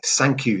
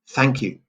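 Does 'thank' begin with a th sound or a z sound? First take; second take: z; th. First: The first sound is a buzzing z. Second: The first sound is a soft th. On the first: The speaker calls it wrong. "French students saying th as z" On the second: The speaker calls it right. "instead of"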